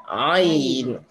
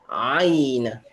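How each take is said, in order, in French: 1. Le premier son est prononcé avec la gorge contractée. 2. Le premier son est prononcé avec la gorge contractée.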